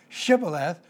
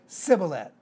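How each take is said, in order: First: The word begins with an sh sound. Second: The word begins with an s sound. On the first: The speaker calls it right. "instead of saying shibboleth for ear of corn" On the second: The speaker calls it wrong. "they would pronounce it with just an S"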